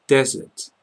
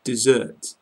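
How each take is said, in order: First: Desert stressed on the first syllable, DEZ-ert; Desert with a short open e, stress up front; Desert as in sandy land, DEZ-ert; desert noun. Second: Desert stressed on the second syllable, di-ZERT; Desert with the weight on the end, di-ZERT; Desert as in abandon, di-ZERT; desert verb. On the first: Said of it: "as in the deserts in Africa". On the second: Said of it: "as in the verb, like abandon". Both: Shown as a demonstration.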